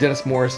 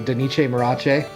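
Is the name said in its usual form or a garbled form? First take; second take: usual; garbled. First: The name is said in its usual form. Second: The name is said in a garbled, altered form. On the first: The speaker calls it right. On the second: The speaker calls it wrong.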